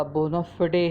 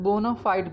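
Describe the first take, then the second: First: बोनाफिडे said as "bo-na-fi-day"; बोनाफिडे with short "fi" and voiced final "day"; exact pronunciation. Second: बोनाफाइड said as "bo-na-fide", ending like "side"; बोनाफाइड with long "eye" and silent final e; alternative pronunciation. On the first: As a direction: end बोनाफिडे in two syllables, "fi-day". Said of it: "जो exact pronunciation है वो बोनाफिडे". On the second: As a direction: end बोनाफाइड in one syllable, "fide". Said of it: "कुछ लोग बोनाफाइड भी पढ़ते हैं". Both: Shown as a demonstration.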